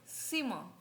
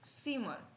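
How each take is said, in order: The two takes are said the same way.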